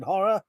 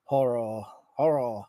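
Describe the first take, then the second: First: Said in the usual way. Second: "Horror" said low and slightly softly as "horro"; mispronounced horror. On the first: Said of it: "I can't even say it now". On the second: Shown as a demonstration. Streamer retrying a word they can't say, horror mispronounced as "horro". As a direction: end "Horror" on an oh, like "horr-oh". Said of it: "sounded like I was doing a really bad Chinese accent".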